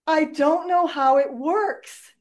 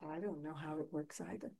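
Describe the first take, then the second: First: Quoted wizard line. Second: Own soft admission. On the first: Retold or imitated. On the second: Real, not acted.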